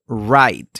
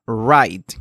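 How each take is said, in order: Both takes have the same delivery.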